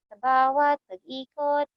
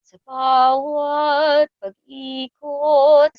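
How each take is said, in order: First: The vowels are shallow, with a closed mouth. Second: The vowels are deep, with an open mouth. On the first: The speaker calls it wrong. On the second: The speaker calls it right.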